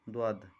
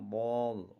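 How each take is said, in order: First: The letter is said light, with a thin sound. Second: The letter is said heavy, with a full mouth. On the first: The speaker calls it wrong. "होगा नहीं" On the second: The speaker calls it right. "मोटा करके"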